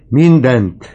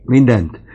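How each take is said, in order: First: "mindent" shouted even higher and louder, falling hard; second "mindent" pushed to the peak; old man's climax on "mindent"; louder cry. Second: "Mindent" shouted high with a falling end; first cry of "Mindent", already loud; old man crying out "Mindent". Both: Acted. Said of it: "kiáltott az öreg".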